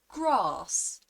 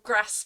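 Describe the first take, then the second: First: A southern English accent with a long A. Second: A northern English accent with a short A.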